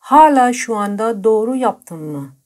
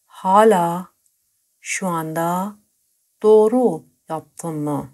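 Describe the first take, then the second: First: Said in the usual way. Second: Slowly, word by word; slow and broken up. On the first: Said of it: "teacher says the example sentence". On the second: Shown as a demonstration. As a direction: split it into pieces so learners can follow. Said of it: "teacher repeats the sentence piece by piece".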